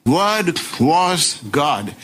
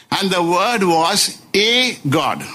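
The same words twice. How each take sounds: First: "Word was God" very slow, each word separate; emphatic declaration. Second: "a" said as a full "ay", set apart before God; higher pitch, punch the A in "a God"; stress on A. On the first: Preacher countering with what John declares, slow emphatic stress. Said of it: "But John is declaring". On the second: Preacher reading the Jehovah's Witness edition, stressing A. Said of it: "Just introduction of one single letter A". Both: Shown as a demonstration.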